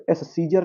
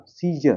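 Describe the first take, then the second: First: एस सीजर with an extra "es" in front; separate s sounded. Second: सीजर starting on a single s; one s sound only at the front of सीजर; silent c. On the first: Teacher showing what it will not be, extra s in एस सीजर. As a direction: lead into the word with "es", एस सीजर. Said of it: "एस सीजर नहीं होगा". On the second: Teacher correcting learners, silent c in सीजर. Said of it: "सी silent". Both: Shown as a demonstration.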